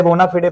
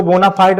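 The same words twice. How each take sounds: First: बोनाफिडे ending in two syllables, "fi-de"; Latin-style bona fide. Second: बोनाफाइड with the ending as "fide", rhyming with "side"; anglicized bona fide. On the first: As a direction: say बोनाफिडे with a sounded final "e". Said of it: "बोनाफिडे पढ़ते हैं". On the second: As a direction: say बोनाफाइड with a one-syllable "fide". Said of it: "इसको बोनाफाइड नहीं पढ़ते". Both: Shown as a demonstration.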